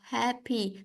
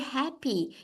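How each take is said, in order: First: The word is said in a flat, plain tone. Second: The word is said in a bright, cheerful tone. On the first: The speaker calls it wrong. "instead of happy" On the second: The speaker calls it right. "that really happy"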